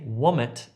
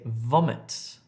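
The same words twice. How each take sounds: First: The word begins with a w sound. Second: The word begins with a v sound. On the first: The speaker calls it wrong. "Don't say vomit" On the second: The speaker calls it right. "say vomit"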